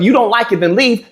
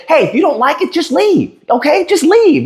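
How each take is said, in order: First: Said in the usual way. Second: High, sneering "just leave, okay?"; a commenter's taunt, mocked high and sneering; mocking "just leave". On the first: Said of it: "If we had the mindset of". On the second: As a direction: mimic the smug brush-off. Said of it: "somebody said what y'all said".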